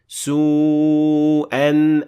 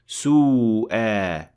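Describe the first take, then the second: First: The word ends in an n sound. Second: The word ends in a long a, no n. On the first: The reading continues past this word. "the alif disappeared and we pronounce the tanween normally" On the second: The reading stops at this word. "when we stopped at this word, we pronounce an alif with two harakat"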